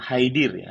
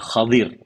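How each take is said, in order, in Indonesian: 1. Suku kata pertama memiliki vokal i. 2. Suku kata pertama memiliki vokal a. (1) "namanya itu bukan Haidir ya" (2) "Jadi yang benar adalah Khadir. Kha pakai fathah"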